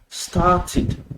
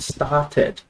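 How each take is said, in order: First: The ending is said with an 'id' vowel. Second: The ending is said with an 'ed' vowel. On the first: The speaker calls it right. "It is started" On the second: The speaker calls it wrong. "this word is not started"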